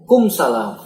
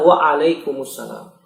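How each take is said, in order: First: The opening syllables of the greeting are dropped. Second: Every syllable of the greeting is fully pronounced. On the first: The speaker calls it wrong. "kum salam apa artinya?" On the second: The speaker calls it right. "Jawab dengan benar"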